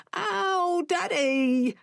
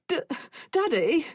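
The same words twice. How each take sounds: First: Put-on much higher, pained little-boy cry; a boy yelling at his father as his arm is pulled; child crying out in pain; child's yell. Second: Put-on high, tearful little-boy whimper; a scared child whimpering to his father; small boy pleading through tears. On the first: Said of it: "Dom yelled". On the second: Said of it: "he whimpered". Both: A narrator's reading.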